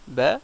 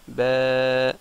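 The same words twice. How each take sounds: First: The vowel is short, held for one beat. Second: The vowel is long, held for two beats. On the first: "au lieu que ça fasse ba" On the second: "deux fois le temps de prononcer une lettre normale"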